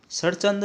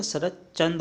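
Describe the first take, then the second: First: शरचंद without a middle t; incorrect form. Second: शरदचंद with a stop before "chand"; corrected form. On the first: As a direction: say शरचंद as "sar-chand". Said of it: "शरचंद नहीं होता". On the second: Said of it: "आधा छः आएगा इसमें". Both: Shown as a demonstration.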